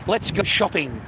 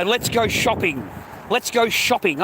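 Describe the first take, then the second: First: Said in the usual way. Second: Higher, louder mock-excited wife; sing-song imitation of an eager shopper; a teasing take on the wife begging to shop.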